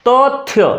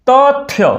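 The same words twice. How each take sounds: The two takes are said the same way.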